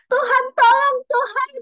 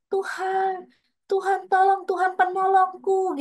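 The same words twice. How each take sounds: First: Very high, loud, frantic shriek for help; panicked scream to God. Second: High, pleading cry for help, voice stretched thin; crying out to God. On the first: On the roller coaster, terrified, screaming loudly for God's help. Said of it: "Jadi tapi aku ngomongnya gitu". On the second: Reliving a moment of fear, begging God for help in a high cry. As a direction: call on God like you're suddenly in danger. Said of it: "Di situ itu aku bisa langsung". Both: Retold or imitated.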